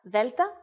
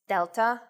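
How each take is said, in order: First: The first consonant is soft, Greek style. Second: The first consonant is hard, English style. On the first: The speaker calls it right. "in Greek the sounds are much softer" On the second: The speaker calls it wrong. "their English versions"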